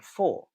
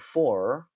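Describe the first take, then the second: First: It ends without any r sound. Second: It ends with a clear r sound. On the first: "I'm saying for" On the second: "I'm not saying for"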